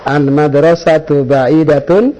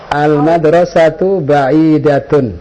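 First: The voice rises at the end like a question. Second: The voice falls at the end like a statement. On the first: It sounds like a question. The speaker calls it wrong. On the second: It sounds like a plain statement. The speaker calls it right.

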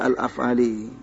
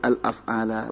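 First: The word ends with an 'i' vowel. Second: The word ends with an 'a' vowel. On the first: The speaker calls it wrong. "Tadi pertama dibaca al-af'ali. Ya. Dan bacaan itu salah" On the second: The speaker calls it right. "As-sahih al-af'ala"

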